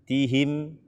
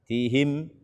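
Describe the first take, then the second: No difference in how they are said.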